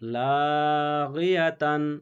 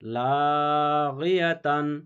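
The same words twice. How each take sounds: First: The word ends with a full 'tan' syllable. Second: The same.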